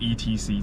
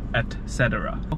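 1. 这是缩略的说法。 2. 这是说全称。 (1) "这听起来很奇怪" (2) "它etc 的全名叫etc"

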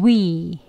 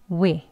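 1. 입술을 양옆으로 당긴 채 길게 내는 모음이에요. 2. 짧고 가볍게 내는 모음이에요. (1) "길게 위, 위라고 하는 게 강형이고요" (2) "약형은... 짧게 그냥 위"

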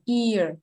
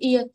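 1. Nguyên âm dài hơn và kéo dài ra. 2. Nguyên âm ngắn, giống tiếng Việt. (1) "Mình đọc là ear. Nó sẽ longer" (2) "đọc âm này là chữ ear thì tiếng Việt này không đúng"

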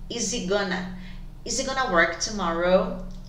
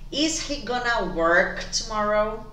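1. As palavras são ligadas e o h desaparece. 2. Cada palavra é dita separadamente, com o h pronunciado. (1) "esse H vai sumir também" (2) "Eu vou ler separado"

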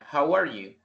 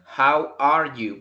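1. La frase se dice rápido. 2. La frase se dice despacio. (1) "Ya rápido sería" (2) "si lo digo así despacio"

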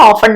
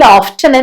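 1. ഈ വാക്ക് 't' ശബ്ദമില്ലാതെ ഉച്ചരിക്കുന്നു. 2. ഈ വാക്ക് 't' ശബ്ദത്തോടെ ഉച്ചരിക്കുന്നു. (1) "പക്ഷെ കൂടുതലും ഓഫൺ എന്നാ പറയാ" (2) "വേണമെങ്കിൽ ഓഫ്റ്റൻ എന്നും പ്രൊനൗൺസ് ചെയ്യാം"

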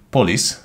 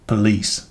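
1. A hangsúly az első szótagon van. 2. A hangsúly a második szótagon van. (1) "ha úgy ejtetted ki, hogy police, akkor rosszul ejtetted ki" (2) "A helyes kiejtésben a második szótagon van a hangsúly, nem az elsőn"

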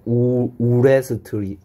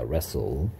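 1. W와 T 소리는 발음됩니다. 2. W와 T 소리는 묵음입니다. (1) "우레스트리 아니고" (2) "W와 T가 소리 안 나는 거"

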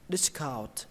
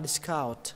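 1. Trọng âm nằm ở âm tiết thứ nhất. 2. Trọng âm nằm ở âm tiết thứ hai. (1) "Một là lên giọng âm đầu tiên" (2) "hai là lên giọng âm thứ hai"

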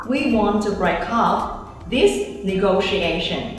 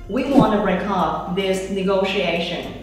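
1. 'Want to' được đọc thành hai từ đầy đủ. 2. 'Want to' được đọc thành hai từ đầy đủ.

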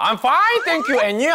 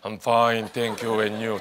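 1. 목소리가 올라가고 생기 있어요. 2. 목소리가 평평하고 낮아요. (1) "톤을 올리셔야 돼요" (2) "다들 그러잖아요"

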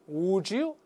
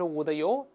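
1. 这两个词连在一起，变成一个音。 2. 这两个词分开说，没有连读。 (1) "这个地方要有发音变化" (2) "不是would 的you"

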